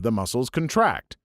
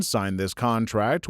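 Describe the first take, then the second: First: Weight lands on TRACT in contract; stress on last syllable. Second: Slow example with weight on CON; stress on first syllable. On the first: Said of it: "the latter is a verb". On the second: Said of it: "The former is a noun". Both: Shown as a demonstration.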